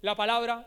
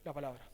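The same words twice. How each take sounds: First: La palabra pressed out firmly, louder; emphatic. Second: La palabra dropped low and much softer; trailing off. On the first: Pastor insisting to the church on la palabra, emphatic. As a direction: declare la palabra with force. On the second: Pastor closing his point on la palabra, hushed. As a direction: let la palabra fall away softly. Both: Shown as a demonstration. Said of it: "no, no".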